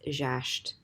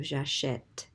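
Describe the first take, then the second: First: J'achète squeezed to "zhasht", no vowel before the T; silent E in j'achète. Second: J'achète as "zha-shet", open E before the T; sounded È in j'achète. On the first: Teacher removing that accent, j'achète said as "zhasht". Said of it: "if you remove that accent". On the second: Teacher restoring the accent, j'achète with open "shet". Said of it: "instead of j'achète". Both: Shown as a demonstration.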